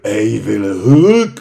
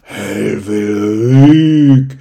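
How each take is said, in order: First: The name is said at normal speed. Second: The name is said slowly.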